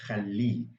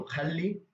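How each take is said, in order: First: Khalli with stressed, falling final -li; stress on last syllable. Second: Said in the usual way. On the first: Shown as a demonstration. Teacher sets one form against another, khalli stressed on its last syllable. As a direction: put the weight on the end of khalli.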